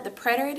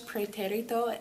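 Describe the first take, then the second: First: "preterite" said the English way; English pronunciation. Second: "pretérito" said the Spanish way; Spanish pronunciation. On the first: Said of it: "in English". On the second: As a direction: say "pretérito" with Spanish sounds, stressed on té. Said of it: "in Español". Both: Shown as a demonstration.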